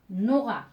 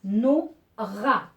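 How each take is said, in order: First: Said in the usual way. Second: Nora loudly broken as "No... Ra"; split into syllables. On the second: Shown as a demonstration. Teacher finding where she hears the R, syllable by syllable. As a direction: punch out Nora in two separate syllables. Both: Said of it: "Je vais cocher où j'entends le son R".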